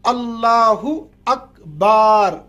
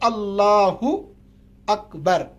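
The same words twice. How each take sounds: First: The vowel after the b is stretched long. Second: The vowel after the b is kept short. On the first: The opening takbir is not valid. The speaker calls it wrong. "अगर आपने बा को खींचा" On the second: The opening takbir is valid. The speaker calls it right. "सही तलफ़ुज़ है"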